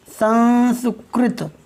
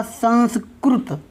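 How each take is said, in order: First: संस्कृत said very slowly with ri, as sanskrit; drawn-out संस्कृत with a clear ri in the middle; North Indian ri pronunciation. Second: संस्कृत said slowly with ru, as sanskrut; slow संस्कृत with a rounded ru in the middle; South Indian ru pronunciation. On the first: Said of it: "उत्तर भारत में री उच्चारण किया जाता है". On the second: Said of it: "दक्षिण भारत में इसको बोलेंगे क्या". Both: Shown as a demonstration.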